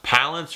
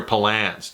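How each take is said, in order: First: Palance with stress on PAL; first-syllable stress. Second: Palance with stress on LANCE; second-syllable stress. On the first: Reviewer unsure of a surname, Palance stressed at the front. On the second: Reviewer trying the other option, Palance stressed at the end. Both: Shown as a demonstration. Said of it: "is it pronounced Palance or Palance".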